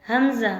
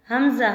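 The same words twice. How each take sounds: The two takes are said the same way.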